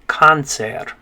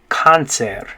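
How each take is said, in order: The two takes are said the same way.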